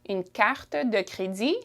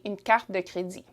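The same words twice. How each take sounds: First: The phrase is said at a slower pace. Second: The phrase is said at a faster pace.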